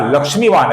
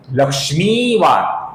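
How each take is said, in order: First: लक्ष्मीवान with a short, quick mi; wrong short vowel. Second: लक्ष्मीवान slowly, with a long held mee; long vowel. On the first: Retold or imitated. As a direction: hurry over the i in लक्ष्मीवान. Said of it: "ऐसा ह्रस्व उच्चारण करते हैं". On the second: Shown as a demonstration. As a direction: stretch the ee in लक्ष्मीवान. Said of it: "इसका सही उच्चारण है".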